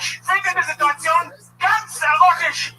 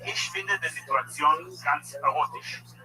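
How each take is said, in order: First: It is yelled loudly. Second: It is said at normal volume.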